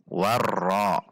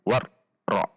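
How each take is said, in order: First: The doubled r is balanced, neither long nor abrupt. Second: The doubled r is cut off abruptly. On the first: The speaker calls it right. "Namun di antara keduanya dengan menjaga takrir huruf ra" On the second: The speaker calls it wrong. "War ra itu menghentak"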